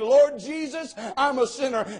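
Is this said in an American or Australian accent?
American. It is said in the speaker's American accent.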